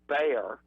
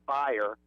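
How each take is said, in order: First: The name is said with familiar English sounds. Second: The name is said with German sounds. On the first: This is how people here usually say it. "which we know as Bayer" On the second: This is how the name is properly said. "Bayer is German. That's how you say it, really"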